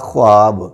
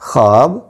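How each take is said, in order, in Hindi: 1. kh के बाद w की आवाज़ पूरी तरह बोली जाती है। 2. kh के बाद w की आवाज़ मुश्किल से सुनाई देती है। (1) "वाव की आवाज़ के साथ करेंगे तो वो गलत होगा" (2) "दुरुस्त तलफ़्फ़ुज़ ये होगा"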